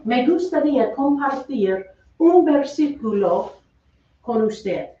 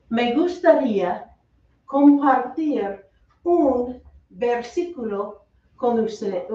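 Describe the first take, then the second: First: Said in the usual way. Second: Slow, separated chunks of Spanish; slowed-down model phrase. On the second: Shown as a demonstration. Teacher gives the class the phrase to share a verse, slowly. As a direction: say it slowly, pausing between the parts.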